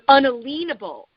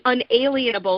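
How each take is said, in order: First: The middle part sounds like a lien. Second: The middle part sounds like the word alien. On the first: No lien can be put against it. "meaning that you can't put a lien against it" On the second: Someone is not an alien. "you think, you know, someone's not an alien"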